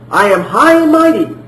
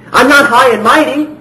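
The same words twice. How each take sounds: First: Puffed-up, boastful claim of greatness; mock haughty. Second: A light, humble take on Jesus speaking; voicing Jesus humbly. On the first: Preacher mocking a proud claim Jesus never made, boastful. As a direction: say it like someone full of himself. Contrast take, haughty version. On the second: Preacher voicing Jesus to the congregation, gently humble. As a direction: let him say it gently, without pride.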